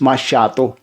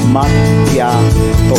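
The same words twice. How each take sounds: First: The middle consonant sounds like 'ch'. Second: The middle consonant sounds like 'k'. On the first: The speaker calls it wrong. "Yung iba ang bigkas nila is macchiato" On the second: The speaker calls it right. "Ang tamang bigkas po ng is macchiato"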